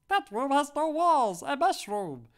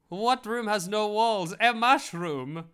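First: It is said in a high helium voice. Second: It is said in a normal voice.

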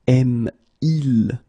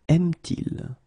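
First: The two vowels meet with no sound between. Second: A t sound links the two vowels. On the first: The speaker calls it wrong. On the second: The speaker calls it right.

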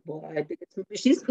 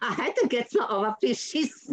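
First: It sounds grumpy and heavy. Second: It sounds cheerful and self-ironic.

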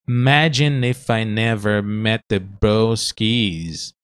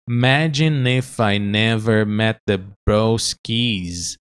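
The two takes are said the same way.

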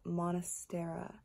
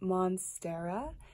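First: An extra vowel comes between mon and stera. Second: There is no vowel between mon and stera. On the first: The speaker calls it wrong. "not monastera" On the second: The speaker calls it right. "it's pronounced monstera"

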